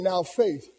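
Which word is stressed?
faith. The stress falls on the word faith. The focus is on faith itself. "the sentence construct demands us to look at the word faith"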